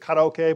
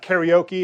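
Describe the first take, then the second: First: The word is said with a Japanese pronunciation. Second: The word is said with an American pronunciation. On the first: The speaker calls it right. "It's karaoke" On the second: The speaker calls it wrong. "We pronounce no Japanese word correct. It's not karaoke"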